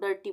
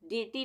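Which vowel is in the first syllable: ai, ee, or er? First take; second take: er; ee. First: The first syllable has an er vowel. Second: The first syllable has an ee vowel. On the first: The speaker calls it right. "डर्टी बोलेंगे, अ का उच्चारण आएगा यहाँ पर" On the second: The speaker calls it wrong. "डीटी नहीं बोलेंगे इसको"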